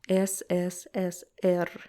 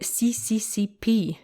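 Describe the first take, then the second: First: The letters are read as Russian 'es' and 'er'. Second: The letters are read as English 'see' and 'pee'. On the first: The Cyrillic letters are read as Cyrillic. The speaker calls it right. "it is uh, U S S R, S S S R" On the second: The Cyrillic letters are misread as Latin ones. The speaker calls it wrong. "they read it as if it's Latin letters"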